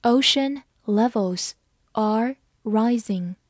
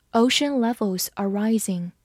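First: Slow, careful model reading; read slowly. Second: Said in the usual way. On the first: Shown as a demonstration. Teacher reading slowly so students can follow. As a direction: lay each word down slowly. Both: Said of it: "好，慢慢来读".

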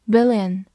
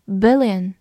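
The two takes are said the same way.

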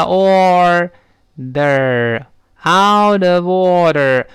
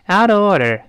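First: "out of order" stretched slowly and firmly; slow practice. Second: Said in the usual way. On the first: Shown as a demonstration. Teacher building up the phrase for students, very slow. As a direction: hold every syllable of "out of order". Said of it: "我说慢". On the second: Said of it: "如果一开始out of order说不出来".

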